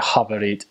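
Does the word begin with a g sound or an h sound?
h sound. The word begins with a guttural h sound. This marks the speaker as Ukrainian. "but they'll say havarit"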